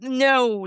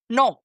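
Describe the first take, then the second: First: It is said with a gliding American vowel. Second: It is said with a pure Spanish vowel. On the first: The speaker calls it wrong. "like Americans do" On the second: The speaker calls it right. "the word no is N O"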